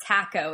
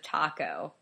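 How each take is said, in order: First: Taco as "TACK-oh", flat a as in cat; British pronunciation. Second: Taco as "TAH-koh", broad ah; American pronunciation. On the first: Citing how British people say it, taco as TACK-oh. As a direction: say taco with the vowel of "back". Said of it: "never correct a British person for saying". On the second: Citing the speaker's own way, taco as TAH-koh. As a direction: say taco with the vowel of "father". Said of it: "instead of taco". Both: Shown as a demonstration.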